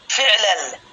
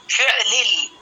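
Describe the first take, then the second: First: فعلل said as fiʕlal, kasra on fa, fatha on lam; فعلل with i then a in the last syllable; pronunciation demo. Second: فعلل said as fiʕlil, kasra on fa and lam; فعلل with i on the first and last syllable; pronunciation demo. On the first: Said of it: "بكسر الفاء وفتح اللام". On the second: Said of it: "بكسر الفاء واللام وسكون العين". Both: Shown as a demonstration.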